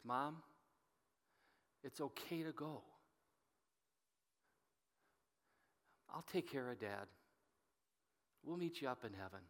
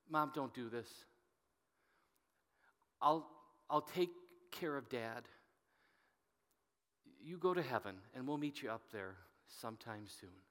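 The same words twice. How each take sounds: First: Softly, near a murmur, tender goodbye; a son's hushed goodbye at the hospital bed; soft farewell. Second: Soft and choked, holding back tears; heartfelt plea, close to crying; held-back tears. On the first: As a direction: ease her into letting go, gently and quietly. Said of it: "I just whisper in her ears". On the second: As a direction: say it as the plea he never made, fighting tears. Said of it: "I'm gonna say this with passion". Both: Retold or imitated.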